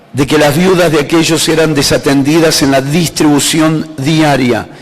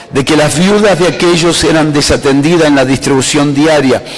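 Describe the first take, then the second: No difference in how they are said.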